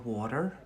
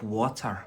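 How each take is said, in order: First: The word is said in an American accent. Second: The word is said in a Scottish accent. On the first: "But obviously in America" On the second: "That's Scottish"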